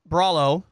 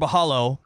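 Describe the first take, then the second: First: The middle consonant is an r sound. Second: The middle consonant is an h sound. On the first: "I'm going to say Chao Bralo" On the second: "because there's a Brazilian flag there. ... I do the H's with the R's"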